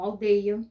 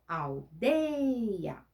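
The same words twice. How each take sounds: First: Said in the usual way. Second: "aldeia" with DEI stretched very long; stress on strong syllable. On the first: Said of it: "pronuncia a palavra". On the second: Shown as a demonstration. Teacher showing pupils the strongest piece of a word, stressed syllable drawn out. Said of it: "no pedacinho mais forte".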